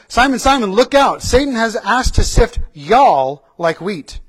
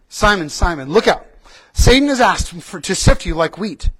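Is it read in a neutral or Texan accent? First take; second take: Texan; neutral. First: It is read in a Texan accent. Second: It is read in a neutral accent.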